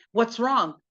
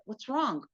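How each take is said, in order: First: Said in the usual way. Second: Softly wondering to himself; quiet question in the husband's head; inner thought. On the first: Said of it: "looks at her and he's like". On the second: Acted. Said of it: "So in his mind, he's like".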